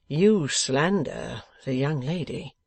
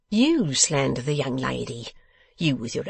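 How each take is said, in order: First: Slow, measured rebuke; grave protest. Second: Quicker retort in a put-on voice; scornful echo. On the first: Acted. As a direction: protest slowly and firmly. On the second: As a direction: throw the accusation back at him. Boffin throws the protest back.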